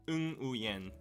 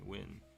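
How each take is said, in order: First: The name begins with an 'ng' sound. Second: The name begins with a 'w' sound. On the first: This is how Korean usually renders the name. "in Korean, we usually just write it as ung" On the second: This is the simplest way to say the name. "Win is the easiest pronunciation"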